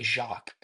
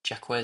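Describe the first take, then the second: First: The name is said with a French pronunciation. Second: The name is said with an English pronunciation. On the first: "but it's really Jacques. It's a French name" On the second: "Jaquez says that"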